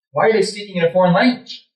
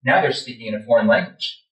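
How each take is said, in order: First: Higher, quicker, paranoid question; alarmed questioning. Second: Said in the usual way. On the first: Retold or imitated. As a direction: ask it in rising alarm. Same words, now alarmed question.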